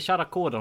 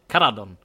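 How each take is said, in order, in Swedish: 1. Namnet börjar med ett mjukt tj-ljud. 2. Namnet börjar med ett hårt k-ljud. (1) "De säger inte Charakodon" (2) "Det lät lite spanskt där"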